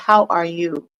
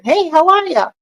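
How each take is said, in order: First: It is a slow, sincere, interested question. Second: It is a quick, casual passing greeting.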